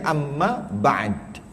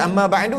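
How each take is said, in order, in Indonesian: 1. Huruf d terakhir dimatikan tanpa vokal. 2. Huruf d terakhir diikuti vokal u. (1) "kita kena matikanlah dal tu. Jadi amma ba'd" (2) "nak baca amma ba'du hidupkan dal"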